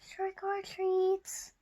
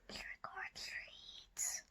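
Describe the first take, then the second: First: It is said a little louder. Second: It is said very softly.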